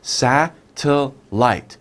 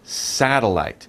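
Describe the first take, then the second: First: The word is said slowly, syllable by syllable. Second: The word is said quickly as one unit. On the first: "How many sounds?" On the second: "very quickly"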